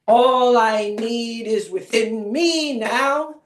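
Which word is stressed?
within. The stress is on "within".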